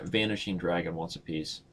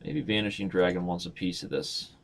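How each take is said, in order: First: Low teasing challenge to the viewer; soft-spoken dare. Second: Low, coaxing challenge; quiet coaxing dare; teasing dare. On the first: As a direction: dare him softly to play. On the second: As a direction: coax the viewer into a match. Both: Pretend. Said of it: "Let's see if Va".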